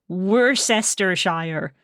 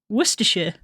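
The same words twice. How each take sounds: First: The name is said syllable by syllable as spelled. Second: The name is said in its short form. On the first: The speaker calls it wrong. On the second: The speaker calls it right.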